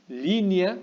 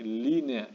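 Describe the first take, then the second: First: "Línea" said as linia, two syllables with the E turned into a Y glide, slow; wrong form linia. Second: "línea" said carefully in three syllables, li-ne-a, with a clear E, slow; correct form línea. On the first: Teacher giving the class the mistaken form, slowly. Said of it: "en vez de, perdón, en vez de línea". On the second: Teacher giving students the correct form, slowly. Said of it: "Línea en vez de". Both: Shown as a demonstration.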